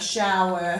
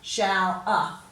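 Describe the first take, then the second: First: The ending is a clear, careful 'er' sound. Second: The ending is a loose, careless 'ah' sound. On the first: The speaker calls it right. "we should really say" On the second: The speaker calls it wrong. "we don't say this very carefully"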